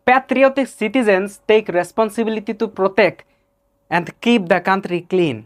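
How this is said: It is spoken with an Arabic English accent. "Kafil এভাবে বলবে"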